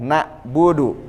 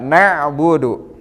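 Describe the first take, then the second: First: The middle consonant is a plain glottal stop. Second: The middle consonant is a throaty pharyngeal sound. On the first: It means we are more eternal than you. The speaker calls it wrong. "Bedakan dengan" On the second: It means we worship. The speaker calls it right. "kita sama-sama"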